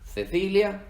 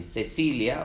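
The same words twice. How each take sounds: First: The C is pronounced with a Z sound. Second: The C is pronounced with an S sound. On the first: "la C se pronuncia S o Z" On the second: "la C se pronuncia S o Z"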